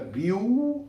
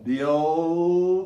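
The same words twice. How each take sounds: First: The final L is said with rounded lips. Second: The final L is said without lip rounding. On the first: The speaker calls it wrong. "não é Bill, não faz bico para fazer esse L" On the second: The speaker calls it right. "olha o som"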